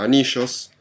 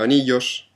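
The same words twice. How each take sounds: First: It is said with an Argentine Spanish accent. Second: It is said with a Spanish Spanish accent. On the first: "en Argentina anillos" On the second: "en España anillos"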